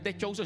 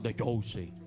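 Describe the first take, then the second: First: It is said in an ordinary speaking voice. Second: It is said in a deep announcer-like voice. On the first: The speaker calls it wrong. "no es" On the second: The speaker calls it right. "Voz así grave"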